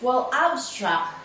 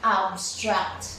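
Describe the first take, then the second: First: "abstract" with the second syllable hit; stress on STRACT. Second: "Abstract" with the first syllable hit; stress on AB. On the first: Teacher showing the verb to the class, stress on STRACT. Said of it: "the stress on the second syllable". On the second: Teacher showing the noun to the class, stress on AB. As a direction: lean on "Ab" in "Abstract". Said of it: "With stress on first syllable". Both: Shown as a demonstration.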